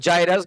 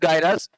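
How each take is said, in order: First: The word begins with a j sound. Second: The word begins with a hard g sound. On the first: "कुछ लोग जाइरस कहते हैं" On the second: "वो जैसा आप pronounce करो"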